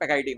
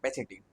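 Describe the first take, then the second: First: The second syllable begins with a 'k' sound. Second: The second syllable begins with a 'ch' sound. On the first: The speaker calls it right. "पेकाइटीन होता है" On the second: The speaker calls it wrong. "बहुत बच्चे इसको पेचेटीन पढ़ते हैं"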